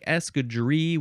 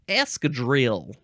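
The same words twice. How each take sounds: First: The word is said with a French pronunciation. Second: The word is said with an American pronunciation. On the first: The speaker calls it right. "would be the more proper way to say it, um, because it is French" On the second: The speaker calls it wrong. "we Americans, we don't like to say things proper. We like to say"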